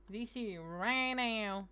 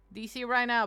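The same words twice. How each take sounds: First: D C right now stretched out slow; insisting, very slowly; slow drawn-out demand. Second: Said in the usual way. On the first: Shown as a demonstration. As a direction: drag out each word of D C right now, demanding.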